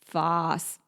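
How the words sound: It is said with an Australian accent. "The Australian version is"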